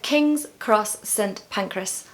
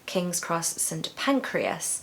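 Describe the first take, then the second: First: The last word sounds like pancras, not pancreas. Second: The last word sounds like the organ pancreas. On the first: The speaker calls it right. "it's actually pancreas" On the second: The speaker calls it wrong. "I was pronouncing this as King's Cross St Pancreas. A pancreas is a human organ"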